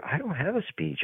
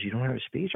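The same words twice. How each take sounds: First: Soft statement, "speech" falling at the end; retold confession. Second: Soft question, "speech" rising at the end; retold questioning. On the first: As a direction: admit quietly that there is no "speech", as a statement. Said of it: "I'm telling the director". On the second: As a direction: softly query the missing "speech" in disbelief. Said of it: "he goes".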